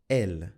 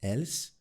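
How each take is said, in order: First: The final s is not pronounced. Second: The final s is pronounced. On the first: The speaker calls it right. "did you notice I didn't pronounce the S" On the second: The speaker calls it wrong. "I didn't say ils, else"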